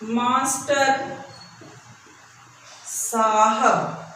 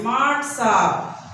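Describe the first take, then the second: First: The first word is said in full. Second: The first word is clipped and shortened.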